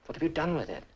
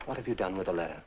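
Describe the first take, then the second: First: "What have you done with it" pitched up, falling at the end; higher, insistent "What have you done with it"; insistent repeat. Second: Said in the usual way. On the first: Acted. Nephew repeats his demand, more insistently.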